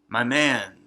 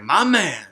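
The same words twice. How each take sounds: First: It is said in a quiet, understated way. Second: It is said in a big, over-the-top way. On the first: "more subtle and it was like less obnoxious" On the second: "in the original Joss one"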